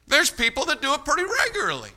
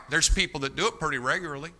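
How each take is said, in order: First: Much higher, emphatic preacher's repeat; insistent, lifted high all through; high-pitched insistence. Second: Said in the usual way. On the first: Real, not acted. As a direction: drive the point home in a raised pitch. Repeats line to drive it home.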